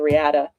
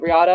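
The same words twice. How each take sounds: First: "Riata" with the A of "cat"; the other owner's pronunciation. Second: "Riata" with an open AH in the middle; own Spanish-style pronunciation. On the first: Telling apart two mules' names, "Riata" with a cat-like A. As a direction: say "Riata" as ree-AT-uh. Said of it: "he pronounces it differently". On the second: Telling apart two mules' names, "Riata" with open AH. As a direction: say "Riata" as ree-AH-tuh. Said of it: "because he pronounces it differently". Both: Shown as a demonstration.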